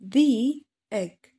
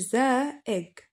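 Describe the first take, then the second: First: 'The' is said with an 'ee' vowel. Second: 'The' is said with a short 'uh' vowel. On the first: The speaker calls it right. "فنقول the egg، نكسرها بلاش نفتحها" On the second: The speaker calls it wrong. "ما أقولش the egg، لأ the egg غلط"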